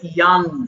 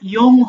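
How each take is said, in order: First: The vowel sounds like an 'a'. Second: The vowel sounds like an 'o'. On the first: The speaker calls it right. "এটা হবে ইয়াং" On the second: The speaker calls it wrong. "এটা ইয়ং হবে না"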